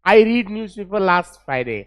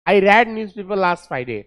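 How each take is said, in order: First: The verb read rhymes with need. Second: The verb read rhymes with bed. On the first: The speaker calls it wrong. "I रीड नहीं है" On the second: The speaker calls it right. "रेड है, इस second form है।"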